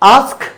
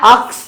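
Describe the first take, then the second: First: The word ends with an s then k sound. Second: The word ends with a k then s sound. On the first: The speaker calls it right. "আস্ক হবে এটা" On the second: The speaker calls it wrong. "আক্স না, অনেকে ভুল করে কি বলে আক্স বলে"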